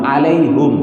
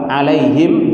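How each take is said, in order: First: The h is followed by an u vowel. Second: The h is followed by an i vowel. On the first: The pronoun keeps its original form. "Yang pertama dengan haknya di dhammah" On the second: The vowel is matched to the vowel before it. "bacaan yang kedua alaihim di kasrah"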